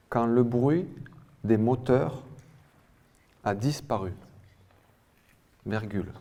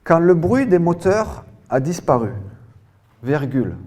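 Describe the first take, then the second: First: "Quand le bruit", "des moteurs", "a disparu" with long pauses between; "bruit" and "moteurs" rising, "a disparu" falling, well separated; chunked dictation. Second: High, loud dictation in one full phrase; loud, carefully articulated dictation voice; dictation reading. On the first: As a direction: repeat it piece by piece, pausing after "bruit" and "moteurs". Dictation repeated in small chunks. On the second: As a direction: project the sentence for a whole class. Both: Real, not acted.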